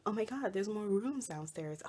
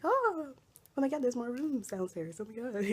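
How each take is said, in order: First: Lightly imitated curious visitors; a touch of mock amazement; mild excited discovery. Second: High-pitched imitation of excited visitors; squealed mock amazement; excited discovery. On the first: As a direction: retell their surprise at an easier pitch. Repeats the visitors' line more calmly. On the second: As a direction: exclaim in mock delight, starting high. Imitating people discovering rooms downstairs.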